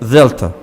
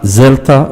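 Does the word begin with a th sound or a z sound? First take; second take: th; z. First: The word begins with a th sound. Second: The word begins with a z sound. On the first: The speaker calls it right. "That's how you should pronounce it" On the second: The speaker calls it wrong. "it's not zelta with a z"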